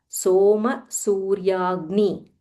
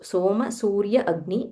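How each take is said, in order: First: The last two words are joined together. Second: The last two words are said separately. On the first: "When you join it, it becomes Soma Suryagni" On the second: "This is Soma Surya Agni"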